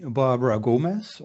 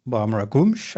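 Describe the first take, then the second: First: Said in the usual way. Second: Gomes as GOO-mesh, nasal o and sh ending; Portuguese pronunciation. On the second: Shown as a demonstration. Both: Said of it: "I think, in Portuguese".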